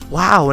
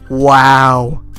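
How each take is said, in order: First: It sounds genuinely impressed and pleased. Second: It sounds sarcastic and annoyed.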